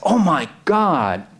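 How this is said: It is said with sudden surprise.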